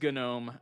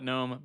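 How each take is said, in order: First: The word starts with a hard G before N. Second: The word starts with a plain N sound. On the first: This is the official pronunciation. "but it is GNOME" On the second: This is the common, easier pronunciation. "I'm going to call it GNOME"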